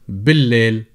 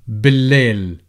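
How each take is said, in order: The two takes are said the same way.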